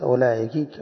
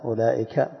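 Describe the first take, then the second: First: أولئك ending in an "i" sound: ulā'iki; final kasra. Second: أولئك ending in an open "a": ulā'ika; final fatha. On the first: Teacher explaining address to a female, أولئك ending in "-ki". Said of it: "وعلى الكسر". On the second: Teacher showing students the variant seen in al-Bukhari, أولئك ending in "-ka". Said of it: "مر بنا في البخاري بفتحها". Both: Shown as a demonstration.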